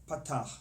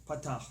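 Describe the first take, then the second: The two takes are said the same way.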